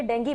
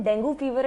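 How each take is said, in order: First: "डेंगू" with a final "ee"; alternative pronunciation. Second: "डेंगू" with a final "oo"; questioned pronunciation. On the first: Host asking the doctor to rule, "डेंगू" said den-gee. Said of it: "डेंगू fever है कि डेंगू". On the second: Host asking the doctor to rule, "डेंगू" said den-goo. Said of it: "please ये बता दें". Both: Shown as a demonstration.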